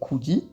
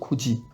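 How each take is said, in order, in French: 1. La consonne du milieu est un simple son d. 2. La consonne du milieu est un son j. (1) "on va pas dire kudi" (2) "mais on va bien dire kuji"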